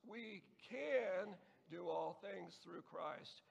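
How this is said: The word "can" is stressed. "the second word the second time"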